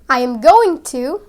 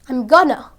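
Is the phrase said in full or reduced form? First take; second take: Full; Reduced. First: Each word is said fully and separately. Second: The words are contracted into a shorter form.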